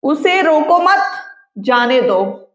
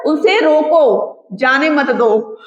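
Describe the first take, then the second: First: उसे रोको मत rising, break, जाने दो falling; pause after मत. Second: उसे रोको, comma break, then जाने मत दो; pause after रोको. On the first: Teacher shows the comma's effect, pausing after मत. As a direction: join मत to रोको, then pause. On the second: Teacher shows the comma's effect, pausing after रोको. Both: Shown as a demonstration. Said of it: "बस कॉमे का फर्क होता है".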